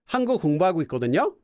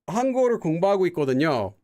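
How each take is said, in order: First: It is said with a condescending intonation. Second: It is said with a plain, neutral intonation. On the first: The speaker implies the listener should already know. "How couldn't you know that? Are you dumb?" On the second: The speaker just informs the listener. "Like, hey, just so you know, I'm studying Korean"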